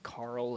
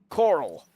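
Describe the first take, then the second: First: The name is said plainly with an 'ar' vowel. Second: The name is drawled with a vowel like 'curl'. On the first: This is how the name actually goes. "It's Carl" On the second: A character's way of saying the name is imitated. "that's what he sounds like"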